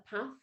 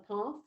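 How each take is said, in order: First: Path is said in the local Warwickshire accent. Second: Path is said in the East Sussex accent. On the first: It matches the children's local speech. "it was a different accent from where I grew up" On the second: It is the teacher's own home pronunciation. "rather than"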